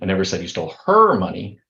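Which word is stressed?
her. The stress is on "her".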